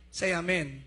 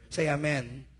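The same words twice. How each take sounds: First: Loud "Say amen" with falling end; amen call again. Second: Loud call of "Say amen"; rally the church to answer. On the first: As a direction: push them to answer louder. (malakas ulit na tawag) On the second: (malakas na tawag sa amen) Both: Real, not acted. Pastor calling church to respond.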